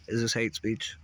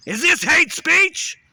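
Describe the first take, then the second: First: Said in the usual way. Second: Slow, much higher, much louder cry; screamed demo. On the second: Shown as a demonstration. Ranter tests which take goes through to the computer, screaming. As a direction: scream "this" out long and high. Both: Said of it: "What goes through better".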